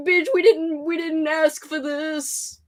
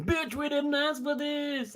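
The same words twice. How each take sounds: First: Drawn-out whine, slowing at the end; hammed-up viewer complaint, dragged out; mock whiny complaint. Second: Slow, higher whine in a put-on voice; imitating a complaining viewer, drawn out; mock whiny complaint. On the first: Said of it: "they're like". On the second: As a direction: drag it out like a fed-up viewer. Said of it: "one single person being".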